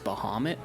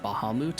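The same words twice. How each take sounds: First: The name is said in its misread way. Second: The name is said in its official way. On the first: "I always thought it was Bahamut" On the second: "the official pronunciation of the word Bahamut"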